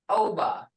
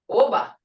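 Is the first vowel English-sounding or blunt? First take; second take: English-sounding; blunt. First: The first vowel has an English vowel sound. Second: The first vowel is short and blunt. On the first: The speaker calls it wrong. "if you use the English sound in this, oba would turn into oba" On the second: The speaker calls it right. "It is o, oba"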